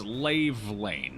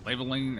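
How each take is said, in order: First: The last part sounds like 'lane'. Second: The last part sounds like 'line'. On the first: The speaker calls it right. "Lave is in Gave, and Lane is in the road" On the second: The speaker calls it wrong. "Is it pronounced Laveline or?"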